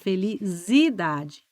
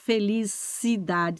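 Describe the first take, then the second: First: The middle consonant is a Z sound. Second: The middle consonant is an S sound. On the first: The speaker calls it wrong. "puser esse i junto do z, ... você vai falar felicidade" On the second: The speaker calls it right. "você não vai mais falar felicidade"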